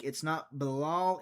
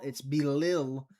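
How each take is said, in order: First: Bilal said slowly with the wrong vowels, the name rejected; wrong pronunciation. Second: Belil said slowly and deliberately, the correct version; correct pronunciation. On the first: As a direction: say Bilal deliberately, as the mistaken version. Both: Shown as a demonstration.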